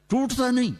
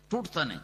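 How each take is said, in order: First: ٹوٹتا نہیں said high with نہیں stressed and falling; ٹوٹتا نہیں as a high insistent cry; emphatic denial. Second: ٹوٹتا نہیں said again much softer, ٹوٹتا stressed; soft, settled ٹوٹتا نہیں; quiet repeat. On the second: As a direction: drop to a hush on ٹوٹتا نہیں. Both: Shown as a demonstration.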